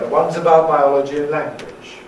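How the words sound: The voice falls at the end. "Why do we use a fall?"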